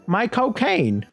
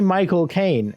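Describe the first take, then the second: First: The name is said in the actor's own accent. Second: The name is said in a plain, standard accent. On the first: The speaker calls it right. "say my cocaine" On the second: The speaker calls it wrong. "don't say Michael Caine"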